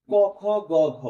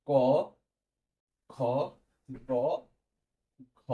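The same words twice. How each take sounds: First: ক, খ, গ, ঘ run together, high and loud; emphatic letter list. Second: ক, খ, গ, ঘ each alone with a long pause after it; letter-by-letter dictation. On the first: Teacher giving students the letters of a rule, emphatic letter list. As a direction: announce ক, খ, গ, ঘ as one raised group. Listing letters before spelling them out. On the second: Teacher dictating letters for students to note, letter-by-letter dictation. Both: Shown as a demonstration.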